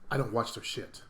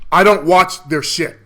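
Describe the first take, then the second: First: It is said at a normal, quieter volume. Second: It is said at a louder volume.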